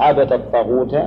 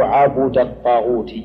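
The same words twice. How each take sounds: First: عبد الطاغوت said ʕabada t-taghuta; verb reading. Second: عبد الطاغوت said ʕabuda t-taghuti; rounded u on the ba of عبد, الطاغوت ending in -i; noun reading. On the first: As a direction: open a on the ba of عبد, الطاغوت ending in -a. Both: Shown as a demonstration. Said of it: "السبعيات منها هي هذه".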